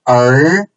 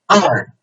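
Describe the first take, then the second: First: It is said with the second tone. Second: It is said with the fourth tone, mouth wider. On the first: "second tone" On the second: "the fourth tone"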